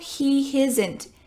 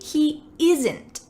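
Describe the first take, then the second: First: The word isn't begins with an added H sound. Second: The word isn't begins directly with a vowel. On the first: The speaker calls it wrong. "my Italian students add an H" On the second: The speaker calls it right. "There's no H sound"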